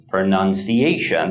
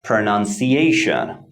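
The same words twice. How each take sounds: First: Pronunciation, main stress on ci, lighter on nun. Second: Pronunciation, secondary stress on nun, primary on ci. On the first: Teacher repeats the example, stress on ci. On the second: Teacher gives the next example word, stress on ci. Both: Shown as a demonstration. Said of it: "primary stress falls on the fourth syllable".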